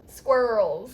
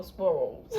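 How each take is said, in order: First: "Squirrels" modelled loudly, with a clear er; correct pronunciation. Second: "squirrels" imitating a learner's wrong version; imitated mispronunciation. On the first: Shown as a demonstration. Teacher correcting a student's slip, clear loud "Squirrels" with er. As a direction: say "Squirrels" firmly and fully, rising at the end. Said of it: "the only thing is". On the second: Teacher showing a student their slip, imitated mispronounced "squirrels". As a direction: copy a student's slightly off "squirrels", rising at the end. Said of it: "you still go squirrels".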